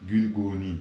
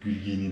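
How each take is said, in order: First: The second syllable has a 'u' vowel. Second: The second syllable has an 'i' vowel. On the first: The speaker calls it right. "Gül, gül, gülguni" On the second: The speaker calls it wrong. "Gülgini değil"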